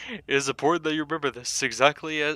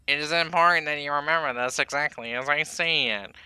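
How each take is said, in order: First: It is said in the speaker's normal voice. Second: It is said in the put-on Baldy voice.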